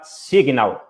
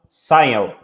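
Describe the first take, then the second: First: The word is pronounced exactly as it is spelled. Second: The word is not pronounced as it is spelled. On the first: The speaker calls it right. "que se chama Signal" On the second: The speaker calls it wrong. "e não Signal"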